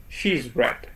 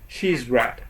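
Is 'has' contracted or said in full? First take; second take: contracted; contracted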